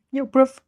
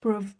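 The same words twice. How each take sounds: First: Louder, higher "Yo, bruv" as a London greeting; British greeting. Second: Drawn-out London "Bruv" with a falling end; British bruv. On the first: Retold or imitated. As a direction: call out "Yo, bruv" to a mate, London style. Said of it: "the way me and one of my friends would address each other". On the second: Shown as a demonstration. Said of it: "read Bruv that way".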